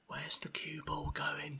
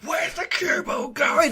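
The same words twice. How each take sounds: First: It is said calmly and quietly. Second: It is screamed at full volume.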